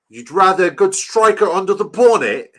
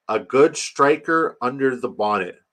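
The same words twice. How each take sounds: First: Loud, high mock English accent. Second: Said in the usual way. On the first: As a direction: put on an exaggerated English accent, pitched up. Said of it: "this is a good English accent".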